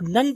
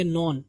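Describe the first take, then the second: First: "نن" with a short u, like nun; "نن" with no o sound; wrong none. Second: "نون" with a rounded o, like non; none with o. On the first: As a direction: say "نن" to rhyme with sun. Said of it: "جو غلط ہو جائے گا". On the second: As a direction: say "نون" with an o sound in the middle. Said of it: "تھوڑا او کی آپ آواز نکالیں گے". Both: Shown as a demonstration.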